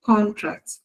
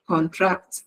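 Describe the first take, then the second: First: "Contract" with CON stressed, TRACT light. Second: "Contract" with con light and TRACT stressed. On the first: Teacher shows the noun, stress on CON. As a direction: noun form, first syllable hit. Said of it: "the stress is on the first syllable". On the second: Teacher shows the verb, stress on TRACT. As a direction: verb form, second syllable hit. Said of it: "the stress is on the second syllable". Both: Shown as a demonstration.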